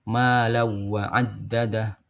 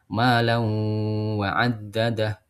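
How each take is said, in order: First: No nasal sound comes before 'wa'. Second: A held nasal sound comes before 'wa'. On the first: This is the variant reading without ghunnah. "adamul gunnah, tanpa gunnah" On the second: This is the usual reading with ghunnah. "kalau di bacaan kita kan ada gunnahnya"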